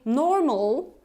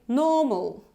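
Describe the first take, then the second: First: It is said with an American R sound. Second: It is said British, without the R sound. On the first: The speaker calls it wrong. "I'm not saying normal, right? That would be American" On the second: The speaker calls it right. "I'm saying normal"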